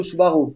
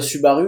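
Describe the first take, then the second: First: Subaru with "oo" sounds; "oo" pronunciation. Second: Subaru with French u sounds. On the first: Car expert showing second of two variants, "oo" pronunciation. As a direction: say Subaru as "Soo-ba-roo". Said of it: "il y a les deux". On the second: Car expert showing first of two variants, French u. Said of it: "des gens qui vont dire". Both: Shown as a demonstration.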